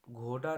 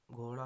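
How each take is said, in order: First: घोड़ा with hard, unflapped ड; wrong pronunciation. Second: घोड़ा with flapped ड़; correct pronunciation. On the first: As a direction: say घोड़ा as "ghoda", firm stop. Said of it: "नहीं होगा". (घोड़ा में बिना बिंदी का ड बोलें) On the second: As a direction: say घोड़ा as "ghora", tongue flapped. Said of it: "होगा". (घोड़ा में ड़ बोलें) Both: Shown as a demonstration.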